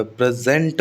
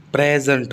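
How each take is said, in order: First: प्रेजेंट as a verb, second syllable जेंट stressed. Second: प्रेजेंट as a noun, first syllable प्रे stressed. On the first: Teacher contrasting the verb, प्रेजेंट stressed on जेंट. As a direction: push the weight onto जेंट in प्रेजेंट. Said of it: "तो ये verb हो जाएगी". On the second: Teacher answering where stress falls, प्रेजेंट stressed on प्रे. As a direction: hit प्रे, let जेंट drop in प्रेजेंट. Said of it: "तो प्रे पर stress आ रहा है". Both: Shown as a demonstration.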